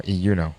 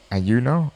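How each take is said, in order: First: Iyuno, opening on an "ee" sound; second option, Iyuno starting "ee"; pronounced Iyuno. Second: Ayuno, opening on an "ay" sound; first option, Ayuno starting "ay"; pronounced Ayuno. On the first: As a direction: say Iyuno with "ee" at the front. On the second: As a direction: say Ayuno with "ay" at the front. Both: Shown as a demonstration. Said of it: "Is it called".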